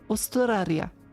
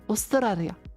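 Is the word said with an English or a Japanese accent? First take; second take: Japanese; Japanese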